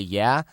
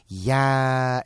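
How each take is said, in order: First: The word is said short and clipped. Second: The word is held out for extra time. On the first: "if you're gonna say yeah" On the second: "you don't hold it out for an extra second"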